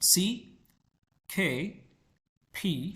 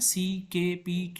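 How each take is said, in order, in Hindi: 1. व्यंजन हवा के झोंके के साथ बोले जाते हैं। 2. व्यंजन हवा के झोंके के बिना बोले जाते हैं। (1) "अमेरिकन जो है, ब्रिटिशर्स जो है ना" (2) "ये पाकिस्तानी एक्सेंट है"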